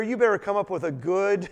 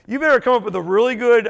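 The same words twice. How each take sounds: First: Said in the usual way. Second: Louder, faster, laughing through it; amused, louder repeat of the warning; laughing emphasis. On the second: Real, not acted. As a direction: push it again with a laugh.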